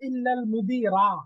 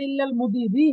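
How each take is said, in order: First: The last word ends with an 'a' vowel. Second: The last word ends with an 'i' vowel. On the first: The noun is read as a direct exception. "Direct মানসুব পড়লে" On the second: The noun is read as a substitute for the word 'anyone'. "আহাদিন থেকে বাদাল পড়লে"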